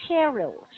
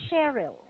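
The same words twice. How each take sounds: The two takes are said the same way.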